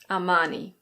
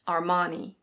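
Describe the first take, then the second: First: It is said with a British pronunciation, no R. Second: It is said with an American pronunciation, R sounded. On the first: "in British English, this is Armani" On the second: "In American English, it's similar, but the R is pronounced"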